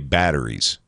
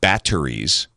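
First: The middle consonant is a soft D sound. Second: The middle consonant is a crisp T sound. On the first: "we say batteries" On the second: "Instead of batteries"

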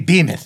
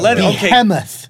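First: The H in the middle is left silent. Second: The H in the middle is clearly pronounced. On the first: This is the American way of saying it. "we say behemoth" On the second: This is the English way of saying it. "what do the English say for that?"

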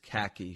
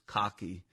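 First: It is said in a standard American accent. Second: It is said in a Boston accent.

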